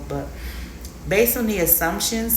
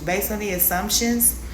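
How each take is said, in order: First: The word assumptions gets no special emphasis. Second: The word assumptions is strongly emphasized.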